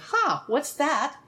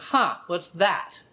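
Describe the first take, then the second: First: It sounds open and curious. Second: It sounds tight and judgmental.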